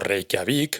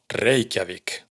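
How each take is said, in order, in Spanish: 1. El acento está en la última sílaba. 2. El acento está en la primera sílaba. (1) "No Reykjavik" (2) "sino Reykjavik"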